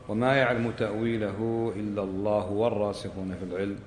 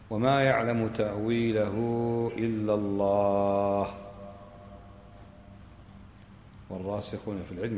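First: The phrase continues without a pause after Allah. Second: There is a pause after the word Allah. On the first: Those firm in knowledge also know its interpretation. "قراءة الوصل" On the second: Only God knows its interpretation; a new sentence begins. "هذا اسمه إيش؟ قراءة الوقف"

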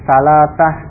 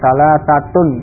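First: The word ends with a soft -ah and no vowel. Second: The word ends with a full -tun ending. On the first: This is the form used in everyday conversation. "diucapkan dengan mensukun akhirnya" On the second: This is the form used when studying the language. "kalau dibaca lengkap dengan huruf akhirnya"

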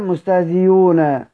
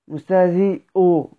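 First: The hamza is replaced entirely by another sound. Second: The hamza is eased, softened between sounds. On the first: "أو الإبدال" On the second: "هنسهل، مستهزئو ضم بعد كسر"

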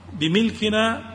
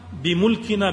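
First: The m is followed by an i vowel. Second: The m is followed by a u vowel. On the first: It means owning the thing. "وأما الكسر" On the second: It means by our ability and capacity. "بضم الميم"

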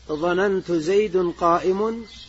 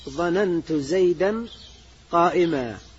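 First: The two nouns end in 'un'. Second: The two nouns end in 'an'. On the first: The verb has no grammatical effect on the nouns. The speaker calls it wrong. "امتنع الإلغاء عند البصريين فلا تقول" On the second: The verb governs the nouns as its objects. The speaker calls it right. "بل يجب الإعمال فتقول"

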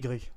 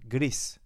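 First: The word is pronounced the French way. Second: The word is pronounced the Spanish way. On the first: The speaker calls it wrong. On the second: The speaker calls it right.

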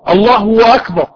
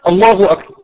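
First: The vowel is stretched into a w sound. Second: The vowel is short, a single beat. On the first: The speaker calls it wrong. "بيحط واو ايه ما بين الله وأكبر" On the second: The speaker calls it right. "ضمة خفيفة كده، الله أكبر حركة واحدة"

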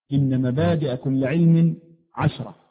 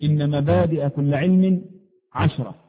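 The two takes are said the same way.

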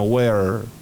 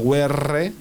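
First: The final r is held without a tap. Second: The final r is tapped like Spanish. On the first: The speaker calls it right. "Sino where. Se queda la R ahí hecha" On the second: The speaker calls it wrong. "where no va a ser where"

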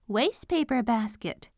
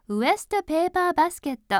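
First: The first vowel is an 'ay' diphthong sound. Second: The first vowel is a short 'e' sound. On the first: The speaker calls it right. "と言いましょうね" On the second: The speaker calls it wrong. "って言わないで"

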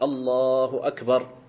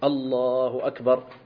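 Both takes have the same delivery.

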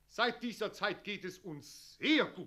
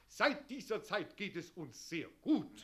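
First: The word sehr gets strong stress. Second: The word sehr gets only light stress. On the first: "Die Betonung mehr auf das sehr verlegen" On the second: "Die Betonung mehr auf das sehr verlegen"

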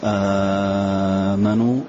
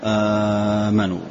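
First: The first vowel is held for six counts. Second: The first vowel is held for two counts. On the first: "مد" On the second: "القصر"

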